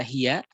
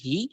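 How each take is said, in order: First: The word ends with a short 'ya' syllable. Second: The word ends on a lengthened 'i' vowel. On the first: The phrase continues without a stop. "yang dia harusnya berharokat dibaca hiya" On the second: The reciter stops on this word. "menjadi hi"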